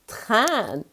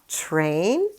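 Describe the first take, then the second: First: The word is said with French pronunciation. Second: The word is said with English pronunciation. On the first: "In French, we say un train" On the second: "In English, you would say a train"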